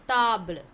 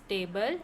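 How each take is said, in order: First: It is pronounced the French way. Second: It is pronounced the English way. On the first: "In French it is table" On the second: "In English it's table"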